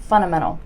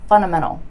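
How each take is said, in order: First: The D sound is dropped, like 'funnamental'. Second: The D sound is dropped, like 'funnamental'.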